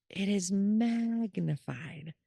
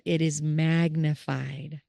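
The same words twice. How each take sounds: First: MAGNIFIED drawn out long on a held pitch; stretched MAGNIFIED. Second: Said in the usual way. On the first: Real, not acted. Stressing how big the loved one's arc gets, MAGNIFIED stretched. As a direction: stretch "magnified" slowly for emphasis.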